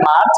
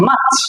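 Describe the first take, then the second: First: মার্চ with the r sounded, "march"; wrong pronunciation. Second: মার্চ as MAACH, silent r; correct pronunciation. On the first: Teacher rejecting the usual form, wrong pronunciation. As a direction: say মার্চ with an audible r. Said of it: "not এটা মার্চ". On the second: Teacher giving the right form, correct pronunciation. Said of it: "এটা হচ্ছে মার্চ". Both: Shown as a demonstration.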